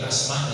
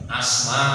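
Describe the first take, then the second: First: The vowels in the word are kept short. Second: A vowel in the word is drawn out long. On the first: It means asthma, shortness of breath. The speaker calls it wrong. "Kalau dibaca pendek" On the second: It is the name of a companion of the Prophet. The speaker calls it right. "Asma dibaca panjang"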